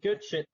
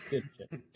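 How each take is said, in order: First: Excited. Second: Said in the usual way. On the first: Real, not acted. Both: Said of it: "I'm loving this already".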